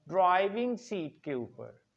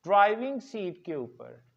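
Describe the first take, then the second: No difference in how they are said.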